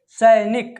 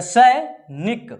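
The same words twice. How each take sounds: First: Said in the usual way. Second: Drawn out slowly. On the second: Shown as a demonstration. Teacher showing pupils how to sound out सैनिक, slowly. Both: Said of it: "sound पूरा निकाल कर पढ़ेंगे".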